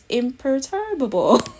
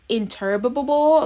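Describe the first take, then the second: First: The word begins with the sounds 'imper'. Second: The word begins with the sounds 'inter'. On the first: The speaker calls it right. "I'm glad that I've learned today that is imperturbable" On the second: The speaker calls it wrong. "I was definitely saying interturbable, which was was very weird on the tongue"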